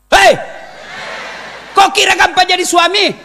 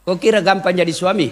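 First: Loud. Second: Said in the usual way. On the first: Real, not acted. Preacher repeats the line, shouting.

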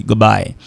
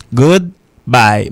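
First: Said in the usual way. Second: GOODBYE drawn out in two separate words; careful slow-motion "Goodbye" for learners; slow careful pronunciation. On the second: Shown as a demonstration. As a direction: say "Goodbye" slowly, good, then bye. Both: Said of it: "Mais on doit parler vite".

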